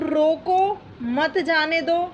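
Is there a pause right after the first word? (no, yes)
yes. There is a pause after the first word. The listener is told to stop someone. "किस चीज का इशारा किया है, रोकने का"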